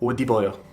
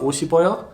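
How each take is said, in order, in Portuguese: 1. A consoante do meio é um som de D. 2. A consoante do meio é um som parecido com S. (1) "quando você fala rápido ... os coreanos falam odiboyo" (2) "que teria que virar esse som de S"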